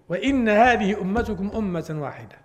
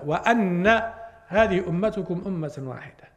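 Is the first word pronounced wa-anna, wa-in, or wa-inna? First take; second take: wa-inna; wa-anna. First: The first word has i, then a doubled n. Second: The first word has a, then a doubled n. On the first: "وإن بكسر النون" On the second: "قراءة الجمهور بفتح الهمزة"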